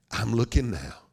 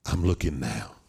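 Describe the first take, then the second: First: LOOKING pushed out firmly; firm repeated assurance. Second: Lightly acted father, voice lowered; low reassurance. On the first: Acted. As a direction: say "looking" firmly, then fall on "now". God repeats it more firmly. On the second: God reassures his son, first take.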